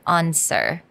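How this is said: It is said with a British-sounding vowel. "稍微有点英国腔的感觉"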